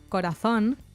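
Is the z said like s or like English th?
th. The z sounds like English th, Spain style.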